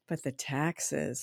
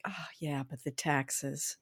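First: Soft, slow, low deflating mutter; gloomy mother-in-law. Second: Soft, low, slow grumble; gloomy mother-in-law. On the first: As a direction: drag it down flatly. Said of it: "That would be her first". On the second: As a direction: deflate the good news. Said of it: "she'd say". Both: Retold or imitated.

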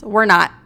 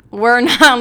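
First: Said in the usual way. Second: "not" hit louder with a laugh; laughing emphasis. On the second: Shown as a demonstration. Vlogger insisting to viewers with a laugh on "not". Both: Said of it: "Let me tell you".

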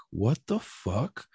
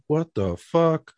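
First: Slow, quiet what the fuck; stunned disbelief. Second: Slow, drawn-out what the fuck; incredulous. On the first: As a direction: let it drop out, stunned. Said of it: "And I was like". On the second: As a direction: stretch it out in disbelief. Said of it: "And I'm like". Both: Retold or imitated.

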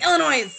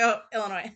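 First: Illinois with the final S sounded, higher; slipped pronunciation. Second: Said in the usual way. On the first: Retold or imitated. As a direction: blurt Illinois ending like "noise". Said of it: "I did that once or twice". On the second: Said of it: "And I'm like".

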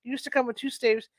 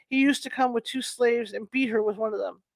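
First: "staves" said with a clear st, no L; corrected word. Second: "slaves" read with an L, sl, not st; "slaves" said where "staves" belongs, with a clear L sound; misread word. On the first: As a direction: fix it to "staves", s-t-a-v-e-s. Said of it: "not slaves, staves". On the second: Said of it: "Staves, I'm sorry, not slaves, staves". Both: Shown as a demonstration.

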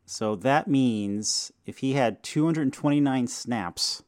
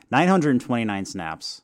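First: Said in the usual way. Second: "Nine hundred twenty-nine" said firmly and a bit louder as a correction; corrected number stressed. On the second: Real, not acted. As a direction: put weight on "Nine hundred". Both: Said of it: "I said that in reverse numbered order".

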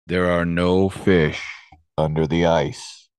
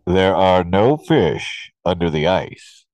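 First: Slow, booming voice from nowhere. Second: Slow, booming hidden voice. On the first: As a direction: boom it out slowly like a hidden presence. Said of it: "he hears this booming voice say". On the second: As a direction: boom it out slowly. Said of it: "booming voice". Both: Retold or imitated.

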